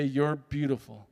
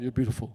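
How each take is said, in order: First: Sincere. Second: Quick, lower, nervous mumble. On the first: Finally telling himself in the mirror, slow and sincere. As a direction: say it slowly like you mean it. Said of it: "I calmed my nerves". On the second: To himself in the hotel mirror, nervous and quick. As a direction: toss it off too fast to mean it. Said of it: "Really nervous". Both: Retold or imitated.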